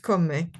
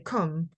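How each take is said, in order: First: The word ends with a clear final vowel sound. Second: The word ends without a final vowel sound. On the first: The speaker calls it right. "they they pronounce the e at the at the end" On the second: The speaker calls it wrong. "maybe I may say come"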